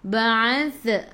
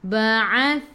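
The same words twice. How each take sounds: First: The final 'th' sound is bounced with a release. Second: The final 'th' sound is held without release. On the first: The speaker calls it wrong. "Jangan baca ba'athna ba'ath ba'ath" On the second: The speaker calls it right. "Kita nak ba'ath, tahan eh"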